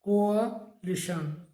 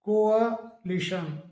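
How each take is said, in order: Both takes have the same delivery.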